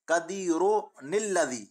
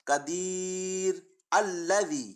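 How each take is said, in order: First: The words are joined with a linking n sound. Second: The words are said separately without linking n. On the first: "पुतनी के साथ लिखने का तरीका" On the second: "नून कुतनी पढ़े बगैर अलग अलग करके पढ़ने का तरीका"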